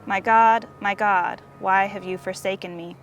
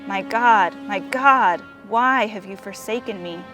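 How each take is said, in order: First: It is said in a calm, steady voice. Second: It is said in a broken, cracking voice.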